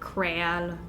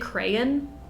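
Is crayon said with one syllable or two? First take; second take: one; two. First: It is said with one syllable. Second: It is said with two syllables. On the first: The speaker calls it wrong. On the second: The speaker calls it right. "As long as you've got two syllables in there, I'm okay with that"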